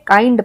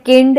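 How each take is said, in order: First: The vowel is a gliding 'eye' sound. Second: The vowel is a short 'ih' sound. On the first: The speaker calls it right. "हम इसे काइंड पढ़ेंगे" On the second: The speaker calls it wrong. "इसे हम किंड या किंड ऐसे हम नहीं पढ़ेंगे"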